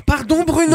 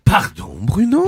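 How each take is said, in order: First: Hammed-up high apology; exaggerated apology. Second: Mock apology. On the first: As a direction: overplay the sorry, voice way up. (excuses surjouées, voix aiguë) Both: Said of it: "je vais le refaire".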